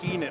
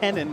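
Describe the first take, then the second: First: The first vowel is long, like 'keen'. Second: The first vowel is short, like 'ken'. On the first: The speaker calls it wrong. "not Keenan" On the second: The speaker calls it right. "It's Kenan"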